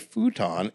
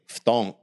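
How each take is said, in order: First: It is said as two syllables, foo-ton. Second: It is said as one clipped syllable, ftong. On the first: The speaker calls it wrong. "he calls it a futon" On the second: The speaker calls it right. "I knew how to pronounce it proper. It's ftong"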